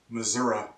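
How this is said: It is said in a regional American accent.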